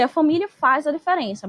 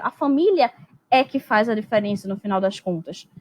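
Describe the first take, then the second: First: Said in the usual way. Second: "é que" pressed firmly, stressing "família é que faz"; emphatic é que. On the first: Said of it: "Eu poderia só dizer". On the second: Shown as a demonstration. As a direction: lean into "é que" to emphasize the family. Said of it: "mas eu quero".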